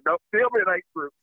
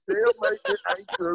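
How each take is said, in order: First: Said in the usual way. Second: "Tell me it ain't true" jumps way up high in a hammed-up overwhelmed cry; comic disbelief, voice leaping high; mock emotional plea. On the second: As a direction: pitch "Tell" much higher, playing choked up. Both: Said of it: "I'm getting emotional".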